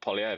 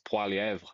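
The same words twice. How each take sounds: First: The name is said with English sounds. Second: The name is said with French sounds. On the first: This is the common adapted version of the name. The speaker calls it wrong. "it's an anglicized pronunciation" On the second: This is the name's original form. The speaker calls it right. "That's his actual name"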